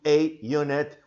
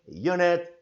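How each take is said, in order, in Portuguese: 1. É dito devagar, o artigo se ouve claramente. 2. É dito rápido, o artigo quase não se ouve. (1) "pronunciando vagarosamente, conforme já me referi antes, daí a coisa é ouvida" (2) "quando é falado normalmente o inglês, que não é aquele inglês mais vagaroso, você quase não percebe"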